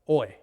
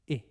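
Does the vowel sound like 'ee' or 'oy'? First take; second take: oy; ee. First: The vowel sounds like 'oy' in oil. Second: The vowel sounds like 'ee' in spit. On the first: The speaker calls it wrong. "in the classical Raspbian pronunciation is like the O I in oil" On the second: The speaker calls it right. "the Koine and modern pronunciation? ... like the I in spit"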